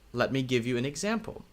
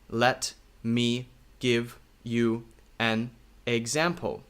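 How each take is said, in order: First: The words flow together smoothly. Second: Each word is said separately. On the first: The speaker calls it right. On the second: The speaker calls it wrong.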